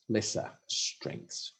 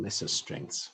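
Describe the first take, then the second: First: Lesser strengths whispered, very slow and drawn out; mocking whisper. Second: Said in the usual way. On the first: Shown as a demonstration. Mocking the report's euphemism, whispered slowly. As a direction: breathe lesser strengths slowly, with wry scorn. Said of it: "they call them lesser strengths".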